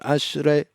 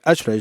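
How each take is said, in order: First: The word is said slowly and deliberately. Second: The word is said quickly and hurriedly. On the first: The prayer helps one settle and focus. The speaker calls it right. "you slow yourself down and you say each line out loud and go ashrei" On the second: The prayer is rushed without focus. The speaker calls it wrong. "I don't think it helps you settle if you say ashrei like ashrei"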